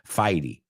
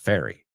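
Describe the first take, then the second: First: It is pronounced with Spanish sounds. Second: It is pronounced with English sounds. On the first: "I know how you pronounce it in Spanish" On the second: "The first word's fairy"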